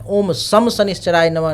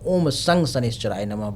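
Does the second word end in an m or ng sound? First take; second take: m; ng. First: The second word ends with an m sound. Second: The second word ends with an ng sound. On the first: The speaker calls it wrong. "नहीं बोलना है" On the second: The speaker calls it right. "बोलना है"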